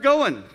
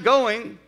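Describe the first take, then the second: First: The ending is clipped to an -in sound. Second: The ending is a full -ing sound. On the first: "you're going" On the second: "you're not going"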